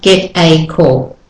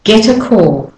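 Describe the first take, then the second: First: "get a call" with "a" as a full ay; wrong full a. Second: "Get a call," T flapped into weak a; natural linked version. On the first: Teacher showing the wrong version. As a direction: say the a stiffly. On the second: Teacher contrasting right and wrong linking. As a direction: flow it together. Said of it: "not get a call". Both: Shown as a demonstration.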